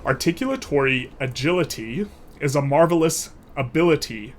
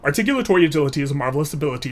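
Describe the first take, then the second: First: The phrase is spoken slowly and deliberately. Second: The phrase is spoken quickly. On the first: "I'll do it slowly" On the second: "And then a little bit faster"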